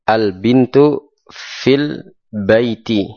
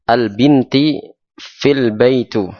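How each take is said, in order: First: The first word ends in u, the last in i. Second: The first word ends in i, the last in u. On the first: The speaker calls it right. "Yang betul" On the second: The speaker calls it wrong. "Kalau binti itu salah"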